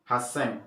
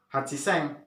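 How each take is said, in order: First: The number is contracted with a doubled consonant. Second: The number is said as two full parts. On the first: The speaker calls it right. "tapi haseng. Jadi ada su kecil di tengahnya dan disambungkan" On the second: The speaker calls it wrong. "bukan haji seng"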